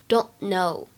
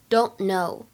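The two takes are said the same way.

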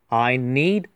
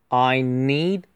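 Both takes have the same delivery.

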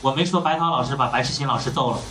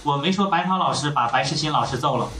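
No difference in how they are said.

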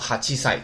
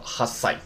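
First: The number keeps its full 'chi' syllable. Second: The number ends in a doubled consonant. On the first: This form is heard in daily life. "但是你可以读成哈七赛，可以啊。" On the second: This form is the textbook standard. "考试的时候呢，他也要说哈塞"

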